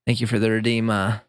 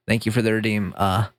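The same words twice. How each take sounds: The two takes are said the same way.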